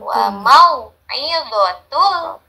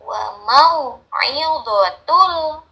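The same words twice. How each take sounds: No difference in how they are said.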